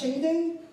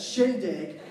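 First: The word ends with a 'ding' sound. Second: The word ends with a 'dig' sound. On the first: The speaker calls it wrong. "I've been saying this wrong" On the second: The speaker calls it right. "You guys probably know it as shindig"

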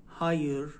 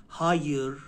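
The two takes are said the same way.

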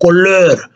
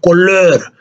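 First: The e vowel is pronounced with an altered quality. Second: The e vowel is pronounced with an altered quality.

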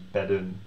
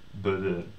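First: The ending is pronounced clearly. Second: The ending is mumbled and unclear. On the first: The speaker calls it right. "it's bedden" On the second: The speaker calls it wrong. "it sounds just like you're kind of mumbling"

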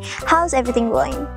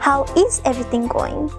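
First: 'How is' is contracted to 'how's', said faster. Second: 'How is' is two full words, said slower. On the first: "If you wanna like say it in a faster way" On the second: "if you wanna say it in a slower way"

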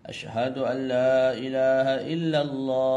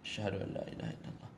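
First: It is said loudly, in a full voice. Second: It is said softly, in a low voice.

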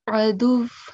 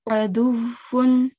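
First: The word stops short without a final vowel. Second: The word ends with a final 'un' sound.

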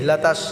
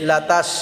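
No difference in how they are said.

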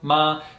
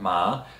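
First: The pitch stays high and level. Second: The pitch rises from middle to high. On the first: "it is the first tone" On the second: "it is the second"

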